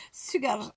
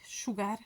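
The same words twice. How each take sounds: First: « Sugar » à la française, avec un u français; accent français. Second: « Sugar » avec un « chou » initial, tout bas; prononciation tentée. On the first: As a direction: dire « Sugar » comme « su-gar », accent français. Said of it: "avec mon accent". (accent français sur le mot anglais « Sugar ») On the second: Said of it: "comment on dit?". (dire doucement « Sugar », son ch au début) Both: Shown as a demonstration.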